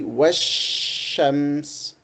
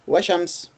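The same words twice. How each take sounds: First: The sh sound is doubled and held long. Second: The sh sound is short and single. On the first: The speaker calls it right. "We say washams... we got longer time in pronouncing the sheen" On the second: The speaker calls it wrong. "we do not say washams"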